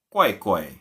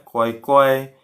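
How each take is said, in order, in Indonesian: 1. Memakai pola nada kata 'aneh'. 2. Memakai pola nada kata 'nurut'. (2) "intonasinya ya, kuai-kuai itu nurut"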